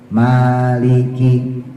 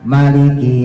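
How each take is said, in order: First: The first vowel is drawn out long. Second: The first vowel is kept short. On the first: This follows the Asim reading by way of Hafs. "maknya lafadznya dipanjangin" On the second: This follows the reading of Ibnu Katsir. "bacanya pendek"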